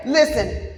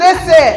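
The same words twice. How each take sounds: First: Said in the usual way. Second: Sharp, high, loud "Listen"; host hushing the excited crowd, loud; loud call for attention. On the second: Real, not acted. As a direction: snap the room to attention with "Listen".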